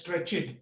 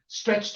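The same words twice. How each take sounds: First: A vowel is inserted between ch and t. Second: The final ch and t are said together. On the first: The speaker calls it wrong. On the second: The speaker calls it right.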